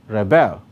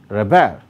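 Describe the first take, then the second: First: The stress is on the second syllable. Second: The same.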